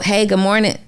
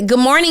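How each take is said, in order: First: It is said with flat, low energy. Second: It is said with lively, high energy.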